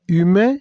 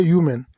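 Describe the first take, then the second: First: "humain" as ü-MEH; French pronunciation. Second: "human" as YOO-men; English pronunciation. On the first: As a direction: say "humain" with French u and open ending. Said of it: "en français". (« humain » dit à la française) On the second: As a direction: sound the y and final n in "human". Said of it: "en anglais". (« human » dit à l'anglaise) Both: Shown as a demonstration.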